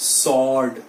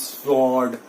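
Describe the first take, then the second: First: "sword" said as SORD; slow, low "sword" with no w; silent w. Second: "sword" said as SVORD; low, slow "sword" with w sounded; wrong sword. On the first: Teacher corrects students' pronunciation, w silent. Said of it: "W is silent". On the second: Teacher contrasts the mistake, w sounded. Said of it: "it is not sword". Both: Shown as a demonstration.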